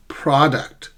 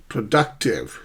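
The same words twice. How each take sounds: First: "Product" with PROD strong; front-stressed "Product"; first-syllable stress. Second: "Productive" stressed on DUC; light pro, strong DUC in "Productive"; middle-stressed "Productive"; shifted stress. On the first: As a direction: hit PROD, keep uct light. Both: Shown as a demonstration. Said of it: "How do we sh-, shift stress?".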